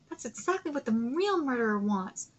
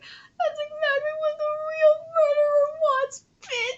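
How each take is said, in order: First: It is read flatly, without attitude. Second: It is read with sassy, accusing attitude.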